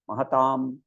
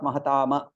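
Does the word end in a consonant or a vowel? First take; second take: consonant; vowel. First: The word ends on the consonant m. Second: The word ends with an extra vowel after m. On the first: The speaker calls it right. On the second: The speaker calls it wrong. "Not mahatama"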